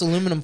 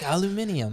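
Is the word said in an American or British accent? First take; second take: American; British. First: The word is said in an American accent. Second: The word is said in a British accent.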